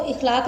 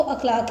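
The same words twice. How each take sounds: First: इखलाक opening on a short i, "ikh-"; wrong pronunciation. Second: अखलाक opening on a short a, "akh-"; correct pronunciation. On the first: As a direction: say इखलाक as "ikhlaaq", the common mistake. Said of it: "इखलाक नहीं है". (इखलाक, ग़लत तलफ़्फ़ुज़, शुरू में "इ") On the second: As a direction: say अखलाक as "akhlaaq". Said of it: "वो अखलाक है". (अखलाक, सही तलफ़्फ़ुज़, शुरू में "अ") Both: Shown as a demonstration.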